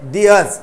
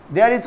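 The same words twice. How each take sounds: First: "theirs" set apart as one word; contracted there's. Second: Said in the usual way. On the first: Shown as a demonstration. Teacher repeats the short form for students, contracted "theirs". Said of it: "there is को बोलेंगे". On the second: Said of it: "को बोलेंगे".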